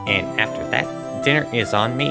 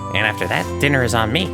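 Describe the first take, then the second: First: It is said with a slipped-in foreign accent. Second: It is said without the slipped-in accent. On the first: The speaker calls it wrong. "I can never do Gumshoe's voice after doing Lana" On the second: The speaker calls it right. "There we go"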